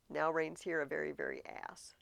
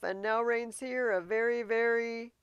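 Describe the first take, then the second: First: Said in the usual way. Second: Loud, higher, teasing recital; Hamlet reciting verse. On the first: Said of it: "was an ass would have rhymed". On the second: Acted. Hamlet recites his rhyme to Horatio, loud and teasing. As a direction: hold back the last word with a smirk.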